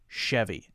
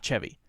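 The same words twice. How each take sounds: First: The word begins with an sh sound. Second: The word begins with a ch sound. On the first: The speaker calls it right. "most people will call it a Chevy" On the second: The speaker calls it wrong. "Not Chevy"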